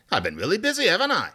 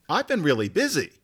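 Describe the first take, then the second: First: Lightly British, rising on "busy" and "haven't I"; a hint of a British speaker with the tag; British tag question. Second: Said in the usual way. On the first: Shown as a demonstration. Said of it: "Brits use that don't you". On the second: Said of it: "Where we would just say".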